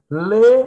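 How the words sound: The letter is said the Bahian way, like 'lê'. "o baiano diz lê"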